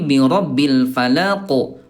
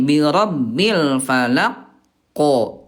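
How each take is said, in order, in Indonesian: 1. Konsonan akhir memantul alami tanpa jeda. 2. Ada jeda sebelum pantulan konsonan akhir. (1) "pantulannya alami. Jangan ada jeda" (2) "itu Bunda ada jeda"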